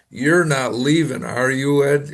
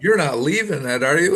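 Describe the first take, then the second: First: It sounds like a direct, firm statement. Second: It sounds like a real, open question.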